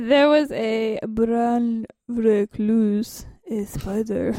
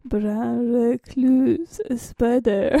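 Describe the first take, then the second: First: Very slow, stretched odd voice; odd drawn-out delivery. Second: Very slow retry of the odd voice; weaker odd voice. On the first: Pretend. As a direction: drag each word out strangely. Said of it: "What are you saying?". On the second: Shown as a demonstration. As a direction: try the stretched voice again, half-hearted. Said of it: "how you say it again?".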